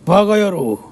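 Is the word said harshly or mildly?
harshly. It is said forcefully, with dramatic pitch. It comes across as an insult. "이래야지 욕이 됩니다"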